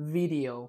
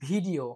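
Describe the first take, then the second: First: It begins with a buzzing v sound. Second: It begins with a breathy stop b sound. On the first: The speaker calls it right. "it's video... So it has a like v sound" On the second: The speaker calls it wrong. "they usually say um, video, but it is not video"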